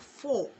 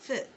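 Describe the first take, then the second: First: The vowel is full with rounded lips. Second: The vowel is reduced to a short weak sound. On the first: "your lips becoming more rounded" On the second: "if you want to soften it, you just say f"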